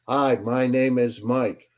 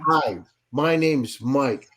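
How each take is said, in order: First: It is said in a flat, boring tone. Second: It is said in a lively, excited tone.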